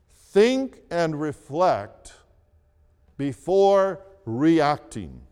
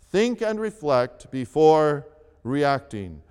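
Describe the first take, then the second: First: "Think and reflect before reacting" said slowly, word by word; slow deliberate. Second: Said in the usual way. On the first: Shown as a demonstration. Pastor stating step three slowly for the congregation. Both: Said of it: "Here is step three".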